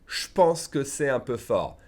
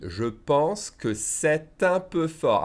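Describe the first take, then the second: First: "Je pense" as "shpense", no T in "c'est un"; contracted phrase. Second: Very slow and higher, with "c'est un" linked by a T; emphatic slow reading. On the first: Teacher gives the spoken version, "Je pense" contracted to "shpense". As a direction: run "Je pense" into "shpense" and skip the liaison. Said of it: "We'll blend those two words together". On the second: Teacher emphasizes how we read it, slowly. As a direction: draw out each word as written. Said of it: "I'll emphasize how we read it". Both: Shown as a demonstration.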